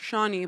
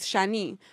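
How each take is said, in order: First: The name is said with an American pronunciation. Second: The name is said with a French pronunciation. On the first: "It's not Shawnee" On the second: "In French, it sounds really nice, which is Shani, but it's like with an A"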